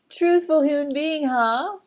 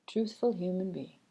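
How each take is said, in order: First: Higher, louder, laughing echo of the phrase; amused repeat. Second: Said in the usual way. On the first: Real, not acted. Back in her own voice, amused by the phrase.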